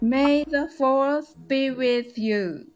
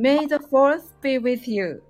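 First: It is said at a slower, practice pace. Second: It is said fast and cool.

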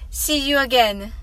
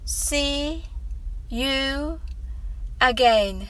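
First: The phrase is spoken at a fast pace. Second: The phrase is spoken at a slow pace. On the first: "次に早く言ってみましょう。" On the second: "最初はゆっくりです。"

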